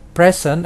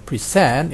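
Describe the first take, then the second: First: The stress is on the first syllable. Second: The stress is on the last syllable. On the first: It is a noun. "kalau dia sebagai uh, kata benda atau noun, maka tekanannya ada di awal" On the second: It is a verb. "apabila dia ber, berupa kata kerja"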